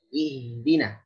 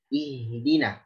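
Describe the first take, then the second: The two takes are said the same way.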